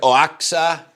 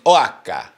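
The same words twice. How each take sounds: First: The word is sounded out literally, letter by letter. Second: The word is said the way locals say it. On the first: The speaker calls it wrong. "it looks like Oaxaca" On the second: The speaker calls it right. "but I think it's Oaxaca"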